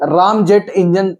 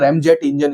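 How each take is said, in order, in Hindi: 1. पहला स्वर एक लंबी 'ah' ध्वनि है। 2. पहला स्वर 'cat' में 'a' जैसा है। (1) "जैसा लगता है पढ़ो तो" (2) "हिंदी में रैम जेट इंजन इसको बोला जाता है"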